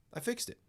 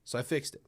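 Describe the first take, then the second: First: Much higher, playful squeak of victory; squeaky triumphant repeat. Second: Said in the usual way. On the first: Real, not acted. Streamer bragging to chat about the fix, high squeaky gloat.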